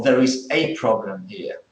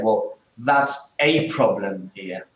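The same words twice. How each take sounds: First: "a" stressed as "ay" in "There is a problem"; emphatic "ay". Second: Slow, with "a" stressed as "ay"; emphatic "ay". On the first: Teacher giving the serious-problem example again. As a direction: press on the "ay". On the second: Teacher showing that it is a serious problem. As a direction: lean on "a" in "that's a problem". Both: Shown as a demonstration. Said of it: "for example, if you say".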